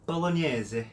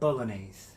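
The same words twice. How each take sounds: First: It is said with an Italian accent. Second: It is said with an American English accent. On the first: "pronounce them like an Italian would" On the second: "I'm going to pronounce them in English first, American English"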